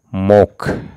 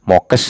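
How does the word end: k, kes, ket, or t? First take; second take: k; kes. First: The word ends with a k sound. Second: The word ends with a kes sound. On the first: The speaker calls it right. "tapi mok" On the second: The speaker calls it wrong. "Itu tidak mokes"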